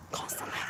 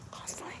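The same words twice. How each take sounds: First: Said in the usual way. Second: Soft whispered repeat of constantly. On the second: Shown as a demonstration. Whispering the hand-washing rule to viewers. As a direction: whisper it for emphasis. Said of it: "whispered repeat".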